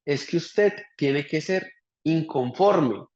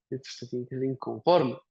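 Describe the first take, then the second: First: "usted" leaned on, words drawn out slowly; slow emphatic advice. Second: Said in the usual way. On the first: Retold or imitated. Quoting his old boss's advice, slow and emphatic. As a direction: spell out "usted tiene que ser inconforme" slowly, stressing "usted". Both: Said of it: "y un día me decía".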